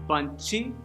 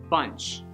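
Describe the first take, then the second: First: An extra vowel is added after the final ch. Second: The word ends cleanly on the ch sound. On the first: The speaker calls it wrong. "not bunchy" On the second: The speaker calls it right. "It's bunch"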